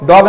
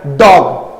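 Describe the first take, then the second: First: डॉग without any jerk; wrong pronunciation. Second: डॉग in one sudden jolt; said with a jerk. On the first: Teacher showing students what to avoid, un-jerked word. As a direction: say डॉग evenly, no sudden cut. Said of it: "डॉग नहीं, झटके से बोलना है". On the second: Teacher modelling for students, word jerked out. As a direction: punch out डॉग short and abrupt. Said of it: "झटके से बोलना है". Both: Shown as a demonstration.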